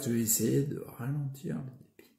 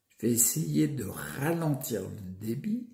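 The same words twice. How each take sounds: First: It is spoken at a quicker, less careful pace. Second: It is spoken slowly with careful articulation.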